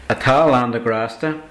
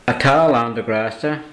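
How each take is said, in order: No difference in how they are said.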